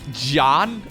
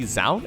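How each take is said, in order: First: It begins with a j sound and rhymes with 'con'. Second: It begins with a z sound and rhymes with 'town'. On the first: "I've heard people even do something like John" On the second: "the O and the U right next to each other in Dutch would be pronounced as an ow"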